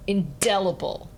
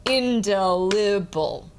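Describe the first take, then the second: First: "indelible" in time, DEL landing on the downbeat; quick light "in" before a strong DEL in "indelible"; natural in-DEL-ible said to a beat; stress on DEL. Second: "Indelible" slowly, IN on the first beat, del on the second; wrongly weighted IN-del-i-ble, drawn out evenly; stress on IN. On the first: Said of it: "say the word to the beat". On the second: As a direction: chant "Indelible" slowly with the downbeat on IN. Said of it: "it would sound really weird". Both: Shown as a demonstration.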